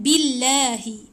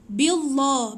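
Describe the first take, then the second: First: The L in Allah is thin and light. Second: The L in Allah is thick and heavy. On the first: The speaker calls it right. "Dia dah nipiskan billahi" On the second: The speaker calls it wrong. "jangan tebal"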